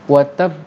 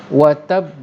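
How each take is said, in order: No difference in how they are said.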